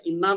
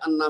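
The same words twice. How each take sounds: First: انا starting on a short i; inna, opening i. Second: انا starting on a short a; anna, opening a. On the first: (انا کو زیر سے "اِنّا" پڑھیں) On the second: (انا کو زبر سے "اَنّا" پڑھیں) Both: Shown as a demonstration. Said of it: "انا بھی آتا ہے".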